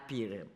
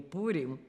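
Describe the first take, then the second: First: The first vowel sounds like 'ee'. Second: The first vowel sounds like 'oo'. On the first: This is how her family said it. "у нас мы говорили Пирим" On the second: This is the standard form her family did not use. "не Пурим"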